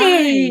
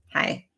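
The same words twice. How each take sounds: First: It sounds cheerful and enthusiastic. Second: It sounds grudging and unenthusiastic.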